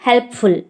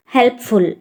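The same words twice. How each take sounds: The two takes are said the same way.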